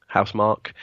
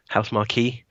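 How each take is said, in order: First: Housemarque said with a hard k ending, unsure; testing Housemarque like house and mark; trying a pronunciation. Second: Housemarque ending in a "kee" sound, with a rising question; marquee-style pronunciation. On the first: To his co-host, unsure how to say the name. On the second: To his co-host, trying the name as marquee, questioning. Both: Shown as a demonstration. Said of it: "House, it's Housemarque".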